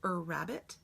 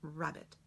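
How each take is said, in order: First: It starts with a long, held er sound. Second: It starts with a short, brief r sound. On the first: The speaker calls it wrong. "do I say er rabbit" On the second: The speaker calls it right. "or do I say rabbit?"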